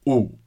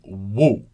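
First: It is a pure oo vowel without w. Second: It begins with a distinct w glide. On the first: The speaker calls it right. "It's just ooh" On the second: The speaker calls it wrong. "It's not actually going woo"

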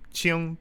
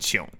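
First: The syllable is said with a high level tone. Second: The syllable is said with a dipping tone. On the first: The speaker calls it wrong. "He wrote here first tone Qing" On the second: The speaker calls it right. "this is actually a third tone Qing"

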